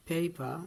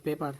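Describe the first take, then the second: First: "paper" as PAY-pa, long glide, no r; correct pronunciation. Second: "paper" as PE-par, short e; wrong pronunciation. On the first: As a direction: stretch the ay in "paper", drop the r. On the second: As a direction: sound the final r in "paper". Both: Shown as a demonstration. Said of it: "not paper".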